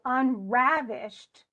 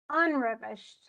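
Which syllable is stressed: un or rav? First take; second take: rav; un. First: The stress is on the second syllable. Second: The stress is on the first syllable. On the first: The speaker calls it right. "It's the rav" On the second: The speaker calls it wrong. "if I said unravished, you'd go, what?"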